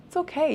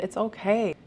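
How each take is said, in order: First: OKAY jumps way up high; pitched-up gentle reassurance; high reassuring okay. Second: Said in the usual way. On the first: Real, not acted. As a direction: lift the second okay high to soothe.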